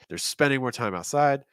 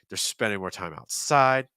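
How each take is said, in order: First: The stress falls on the word spending. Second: The stress falls on the word outside. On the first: The speaker calls it wrong. "You're kind of stressing spending. I wouldn't do that" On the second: The speaker calls it right. "Stress outside"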